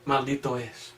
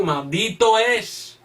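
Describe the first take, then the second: First: "Maldito es" repeated much lower and softer; hushed, grave "Maldito es"; soft echo. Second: "maldito es" drawn out slowly, each word weighted; solemn slow "maldito es"; slow emphatic. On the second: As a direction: lean hard on "maldito es", slowly. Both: Shown as a demonstration. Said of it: "qué dice Pablo".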